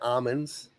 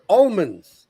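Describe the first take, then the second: First: The word is said without an L sound. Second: The word is said with an L sound. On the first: The speaker calls it wrong. "I've heard someone say almonds" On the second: The speaker calls it right. "There's an L in that"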